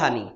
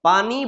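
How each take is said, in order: First: The word begins with an h sound. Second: The word begins with a p sound. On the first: "উচ্চারণ করবে হ" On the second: "পড়বে প"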